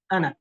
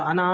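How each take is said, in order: First: अना said short, "ana", its alif silent; running on without a stop, keep अना short; connected reading. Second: अना with its final alif sounded long, "anaa"; pausing on अना, hold the last vowel; pausal reading. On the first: Teacher to students, showing अना read without a stop. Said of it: "वक्फ नहीं करेंगे तो". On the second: Teacher to students, showing अना when stopping there. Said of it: "ये वक्फ करेंगे तो". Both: Shown as a demonstration.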